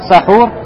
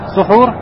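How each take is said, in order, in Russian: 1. Первый гласный — открытый звук 'a'. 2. Первый гласный — огубленный звук 'u'. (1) "Если ты скажешь сахур" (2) "если скажешь сухур с даммой"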